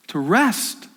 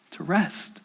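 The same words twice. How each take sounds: First: Said in the usual way. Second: Fading, much softer repeat of to rest; softer echo. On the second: Acted. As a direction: let it die away. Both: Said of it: "to say".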